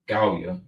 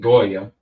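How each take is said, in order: First: The word is said with a Hebrew pronunciation. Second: The word is said with an anglicized pronunciation.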